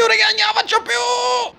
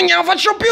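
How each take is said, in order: First: Ned collapsing in a high-pitched shout; wailing give-up. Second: Much higher, whimpering; Ned at the end of his rope, pleading high; whiny giving up. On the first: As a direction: let it crack into a howl. Ned breaking down, louder. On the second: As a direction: squeak it out like a beaten man. Ned breaking down. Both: Acted.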